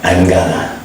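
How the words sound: It is reduced to gonna, American style.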